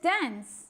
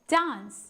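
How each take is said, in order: First: It is said in an American accent. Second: It is said in a British accent, with a long 'ah'. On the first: "That's in American accent" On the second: "British accent they dance... ආ sound එකට"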